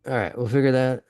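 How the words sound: It is said in a put-on character voice.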